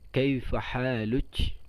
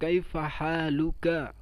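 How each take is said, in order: First: The last word ends with a ch sound. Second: The last word ends with a k sound. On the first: This is the colloquial form. "dibacanya kaifa haluch" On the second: This is the standard form.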